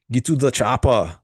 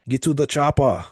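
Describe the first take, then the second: First: Put-on quick Austrian-accented movie line; Arnold impression. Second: Austrian-accented line, pitched up and put on; Arnold impression. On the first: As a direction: bark it like the action hero. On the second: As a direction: growl the order like the action hero. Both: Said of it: "Haha, that's actually pretty good." My, my, uh, Arnold impression".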